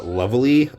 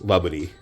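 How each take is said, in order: First: It is said with English pronunciation, with an L and a V. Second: It is said with Japanese pronunciation, with a B sound. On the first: "like the way in English speakers pronounce" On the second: "the actual Japanese pronunciation of the word lovely, which is laburi"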